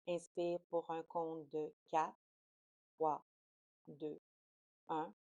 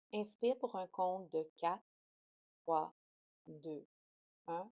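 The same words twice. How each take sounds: The two takes are said the same way.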